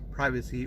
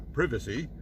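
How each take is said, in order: First: The word is said in an American way. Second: The word is said in a British way.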